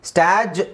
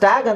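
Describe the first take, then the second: First: The word ends with a j sound. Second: The word ends with a hard g sound. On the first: The speaker calls it wrong. "ಸ್ಟ್ಯಾಜ್ ಯಾಕಾಗಲ್ಲ? ಜ ಯಾಕಾಗಲ್ಲ?" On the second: The speaker calls it right. "ಇದನ್ನು ನಾನು ಸ್ಟ್ಯಾಗ್ ಅಂತ ಹೇಳ್ತೀನಿ"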